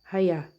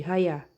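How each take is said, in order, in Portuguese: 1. A palavra começa com um som de h audível. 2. A palavra começa com um som de h audível.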